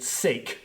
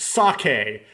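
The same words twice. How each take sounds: First: It is said with an English-style pronunciation. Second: It is said with a Japanese pronunciation. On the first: The speaker calls it wrong. "I went back to my never seven days of pronouncing it sake" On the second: The speaker calls it right. "It's sake. It's a Japanese word"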